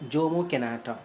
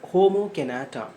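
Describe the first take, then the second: First: The first name begins with a J sound. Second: The first name begins with an H sound. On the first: The speaker calls it wrong. "you should not pronounce it as" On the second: The speaker calls it right. "It should be pronounced as"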